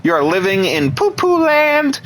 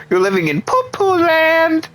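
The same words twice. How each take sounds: First: Said in the usual way. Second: Put-on high squeaky baby voice taunting them; high babyish mocking singsong; mock baby talk. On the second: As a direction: coo it like talking down to a toddler.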